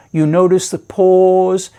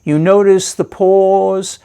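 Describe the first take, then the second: No difference in how they are said.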